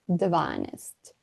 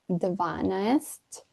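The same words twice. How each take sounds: First: The word is said fast with sounds shortened. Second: Every syllable of the word is pronounced fully. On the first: "when we say it fast ... slightly shorter" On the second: "we write ... dvanaest"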